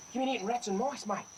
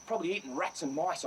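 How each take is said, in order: First: Coaxing the snake. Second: Said in the usual way. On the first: Real, not acted. Talks fondly to cobra.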